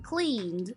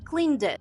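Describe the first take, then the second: First: The ending adds no extra syllable. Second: The ending adds an extra syllable. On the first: The speaker calls it right. "Instead of saying cleaned" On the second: The speaker calls it wrong. "they say cleaned it"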